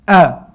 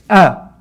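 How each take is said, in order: First: The vowel starts with a sharp glottal catch. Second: The vowel starts with a sharp glottal catch.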